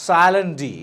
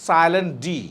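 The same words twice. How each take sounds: Both takes have the same delivery.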